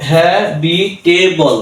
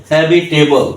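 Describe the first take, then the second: First: habitable slowly, with each syllable apart; slow syllable-by-syllable demo of habitable; split into syllables. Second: Said in the usual way. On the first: Shown as a demonstration. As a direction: break habitable into four measured beats. Teacher splits word into syllables.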